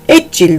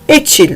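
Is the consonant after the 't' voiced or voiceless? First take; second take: voiced; voiceless. First: The middle consonant is a voiced 'j' sound. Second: The middle consonant is a voiceless 'ch' sound. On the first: The speaker calls it wrong. "Etçil değil" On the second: The speaker calls it right. "etçil deriz"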